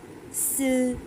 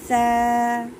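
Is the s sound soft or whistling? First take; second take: whistling; soft. First: The s sound has a sharp whistling hiss. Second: The s sound is soft, tongue against front teeth. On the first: The speaker calls it wrong. "ऐसे नहीं कहना सा, स, whistling sound नहीं देना" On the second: The speaker calls it right. "Simple तरीके से पढ़ना है, ज़बान की नोक को फ्रंट के दांतों से लगा के नरमी के साथ"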